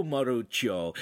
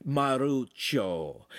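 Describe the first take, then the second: First: Said in the usual way. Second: Maruccio drawn out slowly; slow, careful name-teaching. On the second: A narrator's reading. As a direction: stretch the name Maruccio syllable by syllable. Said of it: "saying it slowly".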